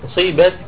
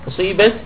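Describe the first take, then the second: The two takes are said the same way.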